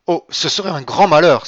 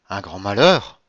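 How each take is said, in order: First: High, very loud outcry; alarmed exclamation. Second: MALHEUR swept sharply upward as a question; questioning echo. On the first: Villefort dreading the marriage falling through, crying out. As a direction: cry out in alarm, voice leaping up. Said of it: "s'écria Villefort". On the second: Monte Cristo echoing Villefort's cry, "malheur" rising in question. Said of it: "répéta Monte Cristo". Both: A narrator's reading.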